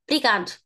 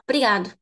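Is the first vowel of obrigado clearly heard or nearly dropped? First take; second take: dropped; dropped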